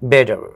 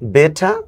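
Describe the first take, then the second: First: It ends with an r sound, American style. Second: It ends without an r sound, British style. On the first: "American accent তো ওরা হচ্ছে যে রটা উচ্চারণ করে" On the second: "ব্রিটিশটা করে না"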